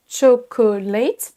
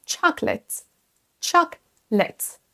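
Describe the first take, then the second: First: "Chocolate" slowly as cho-ko-LATE, three syllables; every syllable pronounced. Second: "Chocolate" as CHOK-lət, two syllables; only two syllables. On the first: Teacher imitating French learners' error, "Chocolate" as cho-ko-late. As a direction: mispronounce "Chocolate", drawing out all three syllables. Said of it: "prononcer toutes les syllabes". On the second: Teacher modelling for French learners, "Chocolate" as CHOK-lət. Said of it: "prononcer seulement deux syllabes". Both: Shown as a demonstration.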